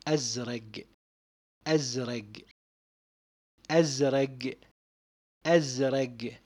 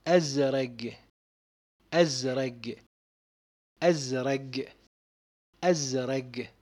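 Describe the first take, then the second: Both takes have the same delivery.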